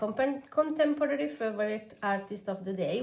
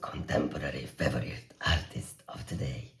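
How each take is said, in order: First: It is said in a normal speaking voice. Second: It is said in a growly monster voice. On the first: "which is a mouthful for me" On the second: "in a monster voice"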